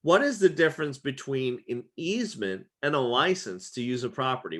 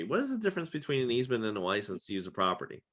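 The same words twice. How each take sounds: First: Said in the usual way. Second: Quicker, softer run-through of the question; fast quiet repeat. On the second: Shown as a demonstration. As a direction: rattle it off again, softer.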